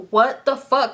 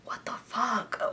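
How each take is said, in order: First: Higher, full-voiced bewilderment; emphatic, acted-out stunned question; voiced disbelief. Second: Soft, voiceless whisper to oneself; whispered inner thought. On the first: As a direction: say it out loud, baffled. Same thought repeated out loud. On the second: Retold or imitated. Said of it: "I didn't say that out loud".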